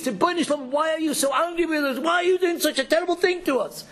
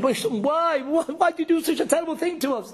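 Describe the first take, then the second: First: High, pleading cry upward; anguished plea to God. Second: Anguished outcry. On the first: Acted. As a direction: beg heaven, pitch raised and aching. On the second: Retold or imitated. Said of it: "we're screaming".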